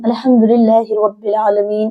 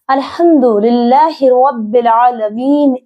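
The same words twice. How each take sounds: First: It is recited at a moderate, even pace. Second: It is recited very slowly and drawn out.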